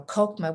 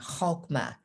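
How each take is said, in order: First: It begins with a plain hard K sound. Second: It begins with a rough guttural throat sound. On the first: "with the K sound is just fine" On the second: "has the pronunciation with a guttural sound"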